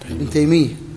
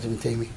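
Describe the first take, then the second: First: The y sound is doubled, with a geminated ya. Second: The y sound is single, without gemination. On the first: The speaker calls it right. "لا، خطأ، ابن تيمية" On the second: The speaker calls it wrong. "وهذا اللي يقول ابن تيمية هذا خطأ"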